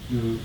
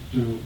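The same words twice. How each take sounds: The two takes are said the same way.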